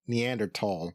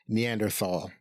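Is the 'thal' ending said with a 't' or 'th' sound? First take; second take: t; th. First: The ending is said with a plain 't' sound. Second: The ending is said with a 'th' sound.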